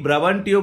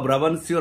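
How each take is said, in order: First: The consonant before the final vowels is a T. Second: The consonant before the final vowels is an S.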